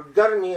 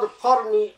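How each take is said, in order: First: The name is said with the Saudi pronunciation. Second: The name is said without the Saudi pronunciation.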